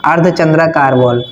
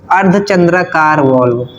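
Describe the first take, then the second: First: Said in the usual way. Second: Slow naming. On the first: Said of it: "आ गया नाम". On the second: Shown as a demonstration. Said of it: "देखो".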